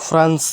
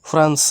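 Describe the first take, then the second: No difference in how they are said.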